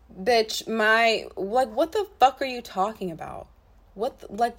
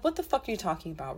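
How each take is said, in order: First: Louder, indignant disbelief; outraged. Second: Said in the usual way. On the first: Real, not acted. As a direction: blast the question out in outrage. Outraged at the text.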